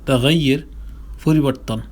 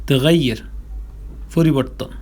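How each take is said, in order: No difference in how they are said.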